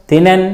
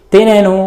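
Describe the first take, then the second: First: తినెన్ closed on a bare n; తినెన్ with no vowel after n; vowelless final n. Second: తినెను with a voiced u at the end; full final ను. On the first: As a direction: drop the u, end తినెన్ on n. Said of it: "పొల్లులాగానే". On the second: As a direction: say the whole ను in తినెను. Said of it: "ను అన్నట్లుగా కూడా ఉండొచ్చు". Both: Shown as a demonstration.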